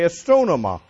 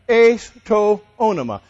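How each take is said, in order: First: The words are run quickly together into one. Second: The three words are said separately and clearly.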